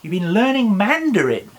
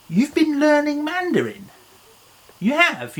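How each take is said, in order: First: Said in the usual way. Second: Much higher, amazed at "learning Mandarin"; "You've been learning Mandarin" squeaked up high in wonder; mock surprise. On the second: Shown as a demonstration.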